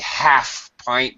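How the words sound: The h at the start of half is pronounced. "I'm an American and of course I'm going to pronounce the H"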